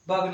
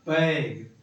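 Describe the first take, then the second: First: The vowel is an uh sound. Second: The vowel is an ae sound. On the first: The speaker calls it wrong. "बग नहीं पढ़ेंगे" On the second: The speaker calls it right. "क्या पढ़ेंगे, बैग"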